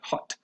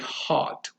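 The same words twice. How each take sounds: First: The vowel is a more relaxed, different sound. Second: The vowel is a fully open ah sound.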